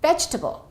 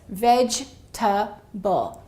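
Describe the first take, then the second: First: The word is said fast. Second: The word is said slowly.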